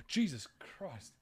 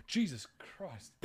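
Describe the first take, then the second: First: Hushed, slow shocked gasp; scared gasp. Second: Hushed, slow re-enacted gasp through a laugh; scared gasp. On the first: Real, not acted. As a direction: gasp it out in real fright. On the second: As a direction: replay the fright, laughing at it. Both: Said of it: "pretty manly scared voice".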